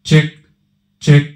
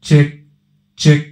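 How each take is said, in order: No difference in how they are said.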